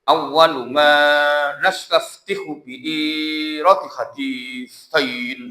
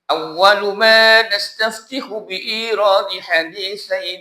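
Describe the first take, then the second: First: It is read haltingly, with sounds dropped or misread. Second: It is read fluently, with every sound pronounced clearly. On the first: The speaker calls it wrong. "Meskipun bacanya kayak baca Iqra. Contoh" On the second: The speaker calls it right. "Yang betul kan"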